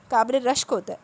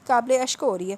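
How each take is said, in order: First: قابل رشک said clearly with the r of rashk; قابل رشک pronounced properly, r and all; corrected pronunciation. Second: قابل اشک said as ashk, the r dropped from rashk; قابل اشک mispronounced without the r; mispronounced phrase. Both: Acted. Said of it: "وہ اس کی اردو پر ہنسی".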